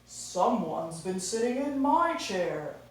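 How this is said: It is said in a daddy bear voice.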